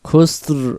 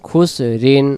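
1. শব্দটি খালি r ধ্বনি দিয়ে শেষ হয়। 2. শব্দটি -in ধ্বনি দিয়ে শেষ হয়।

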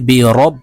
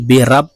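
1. র-এর পরের স্বরধ্বনিটি 'o'-এর মতো শোনায়। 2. র-এর পরের স্বরধ্বনিটি 'a'-এর মতো শোনায়। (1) "বলতে হবে বি রব" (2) "আমরা অনেকে বি রাব রাব এইভাবে পড়ে থাকি"

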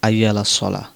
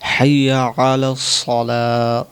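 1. এই বাক্যাংশটি স্বরধ্বনি দিয়ে শুরু হয়, কোনো h ধ্বনি নেই। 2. এই বাক্যাংশটি h ধ্বনি দিয়ে শুরু হয়। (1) "অনেকেই ভাই বলে আইয়া আলাস সালাহ" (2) "এখানে কিন্তু হাইয়া আলাস সালাহ হবে"

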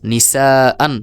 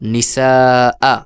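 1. শব্দটি একটি হ্রস্ব স্বরধ্বনি ও তার পরে ন দিয়ে শেষ হয়। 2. শব্দটি একটি দীর্ঘ, টানা স্বরধ্বনি দিয়ে শেষ হয়।

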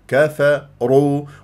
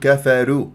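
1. صوت الراء مفخَّم. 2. صوت الراء مرقَّق. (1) "والراء المضمومة تفخم وتقرع" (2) "ولا ترقق الراء لمجاورتها للكاف والفاء تقول كفروا"

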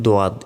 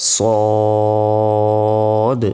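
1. এটি d দিয়ে শুরু হয় এবং এতে একটি গ্লাইড আছে। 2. স্বরটি সাধারণ, এর আগে কোনো গ্লাইড নেই। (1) "এটাকে বলি দোয়াদ, এটাও ভুল" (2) "উচ্চারণটা হবে সদ সদ"

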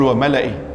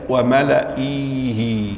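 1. الصوت بعد الهمزة يبقى قصيرًا. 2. الصوت بعد الهمزة يُمدّ ويطول. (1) "تقول" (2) "أنت لا تقول"

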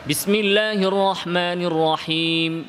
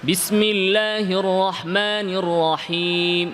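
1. এটি দ্রুত গতিতে তিলাওয়াত করা হয়েছে। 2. এটি মাঝারি গতিতে তিলাওয়াত করা হয়েছে। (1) "একটু দ্রুত তিলাওয়াত করা" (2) "এটা হচ্ছে কি? তাদবীর।"

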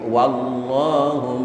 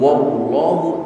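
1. Vokal pertama adalah a terbuka. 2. Vokal pertama terdengar bulat, seperti o. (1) "tapi wallahu; waw dipatah dibaca wa" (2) "bukan wallahu"

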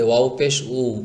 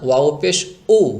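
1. শেষ স্বরধ্বনিটি কোনো টান ছাড়াই মসৃণভাবে শুরু হয়। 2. শেষ স্বরধ্বনিটি গলার টান দিয়ে হঠাৎ শুরু হয়। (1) "এটাকে স্বাভাবিকভাবে বলবেন এভাবে" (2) "এভাবে বলা যাবে না ওয়াও পেশ উ, তাহলে আলিফ পেশ উ, হামজা পেশ উ, এটার মতো হয়ে গেল"

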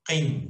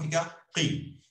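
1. A sílaba termina com o som de n. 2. A sílaba termina com a vogal i simples. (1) "Quando duas, fica qin, com o som do N no final" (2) "Se for uma, fica qi"

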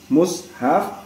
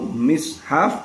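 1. Huruf m diikuti vokal u. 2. Huruf m diikuti vokal i. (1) "dhammahnya mim" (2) "kasrohnya mim"

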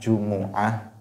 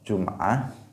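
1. Vokal u mengikuti bunyi m. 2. Tidak ada vokal yang mengikuti bunyi m. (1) "pakai dhammah" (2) "Pakai sukun"

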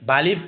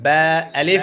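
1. দুটি শব্দ একসাথে জুড়ে এক হয়ে যায়। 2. দুটি শব্দ আলাদা আলাদা করে, ভেঙে ভেঙে বলা হয়। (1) "অনেকে আমরা উচ্চারণটা করি বা আলিফ বলে ফেলি। এইভাবে উচ্চারণ করা যাবে না।" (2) "ভেঙে ভেঙে।"

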